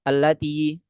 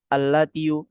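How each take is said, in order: First: The word ends without a final u vowel. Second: The word ends with a final u vowel. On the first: This form is easier to pronounce. The speaker calls it right. "Diucapkan aja allati gitu" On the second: This form is hard to pronounce. The speaker calls it wrong. "Kan susah kita bilang allatiu"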